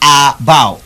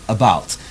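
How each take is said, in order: First: The first vowel is a full, open vowel. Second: The first vowel is a short, weak schwa. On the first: The speaker calls it wrong. "I didn't say about" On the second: The speaker calls it right. "you say about. Your lips will only have a little bit of opening"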